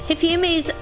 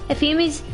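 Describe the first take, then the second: The two takes are said the same way.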